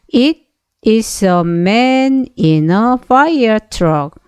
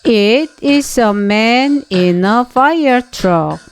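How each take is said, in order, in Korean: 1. 이 문장은 더 느린 속도로 읽습니다. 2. 이 문장은 빠른 속도로 읽습니다.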